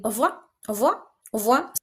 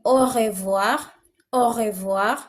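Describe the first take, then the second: First: "au revoir" fast, "o vwa", the R dropped; clipped native way. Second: "au revoir" with a full R and clear syllables; our way of saying it. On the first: Teacher mimics how others say goodbye quickly. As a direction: rattle off "au revoir" fast, swallowing the R. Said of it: "other people are just saying". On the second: Teacher shows the class their own reading. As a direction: say "au revoir" the local way, R sounded. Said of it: "for us, we are saying". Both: Shown as a demonstration.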